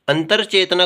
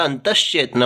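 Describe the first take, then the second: First: अंतर चेतना with r before che; r form. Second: अंतश्चेतना with sh joined to che; sibilant, no r. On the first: Teacher showing the faulty form, अंतर चेतना with r. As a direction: say अंतर चेतना as "antar chetanaa". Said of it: "कुछ नहीं होता". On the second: Teacher giving the correct form, अंतश्चेतना with sibilant. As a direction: say अंतश्चेतना as "antash-chetnaa". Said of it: "ये र नहीं आएगा". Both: Shown as a demonstration.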